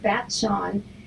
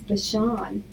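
First: A t sound is heard before the sh. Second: No t sound is heard before the sh. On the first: The speaker calls it wrong. "I pronounce it Bat-Shawn" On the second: The speaker calls it right. "and it's Bashan"

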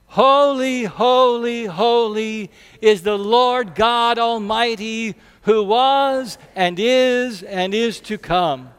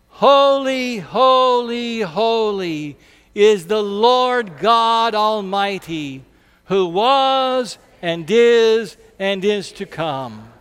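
First: It is said at an ordinary pace. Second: It is said boldly and more slowly.

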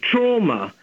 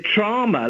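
First: The first vowel sounds like 'aw'. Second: The first vowel sounds like 'ah'. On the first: This is the British pronunciation. "I don't hear that at all" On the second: This is the American pronunciation. "like T-R-A-H-M-A"

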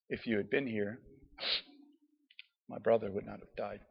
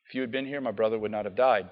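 First: It is said in a broken, tearful tone. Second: It is said in a plain, steady tone.

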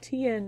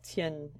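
First: The name is said as two syllables. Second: The name is said as one syllable. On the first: "Tien needs to be two syllables" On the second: "Tien is just one"

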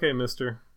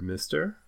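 First: The word is tossed off casually and flatly. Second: The word is drawn out in a suggestive voice. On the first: It is an offhand way of addressing someone. "just kind of like a throwaway" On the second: It is a flirtatious roleplay way of addressing someone. "another like Devil Wars roleplay voice"

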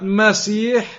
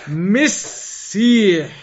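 First: The first vowel is an 'a' sound. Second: The first vowel is an 'i' sound. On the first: It is the title used for Isa. The speaker calls it wrong. "Not Masih" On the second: It is the name used for the Dajjal. The speaker calls it right. "it is actually pronounced as, ... Misih"

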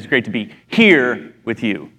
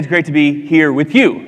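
First: The stress falls on the word 'here'. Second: The stress falls on the word 'you'. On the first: The place is what makes it great. "there's a tendency to say it's great to be here with you, like in the Bahamas with you" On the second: The people are what make it great. "But I would also say it's great to be here with you"

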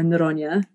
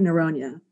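First: The name is said with a Portuguese pronunciation. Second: The name is said with an English pronunciation.

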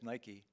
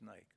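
First: The word is pronounced the American way. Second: The word is pronounced the European way. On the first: "what we would say as Nike" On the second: "All of Europe says Nike"

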